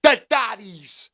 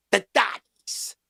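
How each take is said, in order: First: Slow "The thotties", a bit firmer this time; drawn-out thotties again. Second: Slow, stretched "The thotties", each syllable dragged out; drawn-out thotties. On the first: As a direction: lean on "The thotties", slow and deliberate. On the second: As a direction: let "thotties" hang, slowly and teasing. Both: Shown as a demonstration. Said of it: "The thotties. (repeated)".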